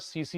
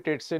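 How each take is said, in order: First: The word begins with an s sound. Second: The word begins with a t sound. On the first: The speaker calls it right. "टी silent होता है उसमें" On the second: The speaker calls it wrong. "टेट से नहीं होता"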